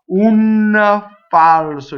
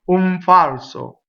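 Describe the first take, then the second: First: The N is a separate tongue sound with a shadow vowel. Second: The N blends straight into the F sound. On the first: The speaker calls it wrong. "if I put the N in my mouth" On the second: The speaker calls it right. "boom, straight ahead"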